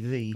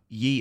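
First: The word begins with a th sound. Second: The word begins with a y sound. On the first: The speaker calls it right. "It's actually the" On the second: The speaker calls it wrong. "you're pronouncing it wrong"

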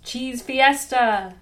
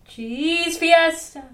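First: It is said at an even loudness. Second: It grows louder in the middle, then softer.

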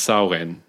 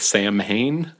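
First: The M is silent in the word. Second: The M is clearly sounded in the word. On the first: The speaker calls it right. "it is pronounced Samhain. The M completely disappears" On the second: The speaker calls it wrong. "It looks like Sam Hain"

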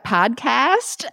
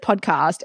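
First: The word is said in an American accent. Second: The word is said in her usual non-American accent. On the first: "how do I say this in a way that you might understand?" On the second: "when I said podcast"

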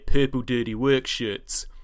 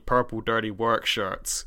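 First: Auckland accent, R sounds not extended. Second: Southland accent, R sounds extended.

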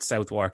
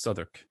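First: The name is said fully, as it is spelled. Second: The name is said in a shortened, reduced form. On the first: The speaker calls it wrong. "it's not Southwark" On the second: The speaker calls it right. "it's Southwark"

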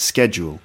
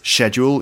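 First: It is said with an American pronunciation. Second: It is said with a British pronunciation. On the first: "In America, it's schedule" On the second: "In the UK, it's schedule"

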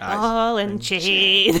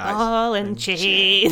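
First: The phrase is said angrily and forcefully. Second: The phrase is said angrily and forcefully.

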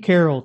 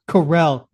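First: The name is said in a plain, casual way. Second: The name is said in an over-enunciated, French-like way. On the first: This is how the speaker himself says the name. "it's Steve Carell to me" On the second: This is the fancy way the name is officially said. "That's some like French shit. You gotta over enunciate your fucking name"

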